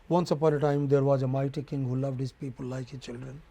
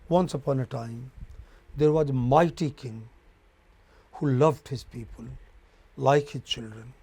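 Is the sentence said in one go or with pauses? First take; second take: in one go; with pauses. First: The sentence runs on without any pauses. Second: The sentence is broken by pauses between phrases. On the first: The speaker calls it wrong. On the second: The speaker calls it right.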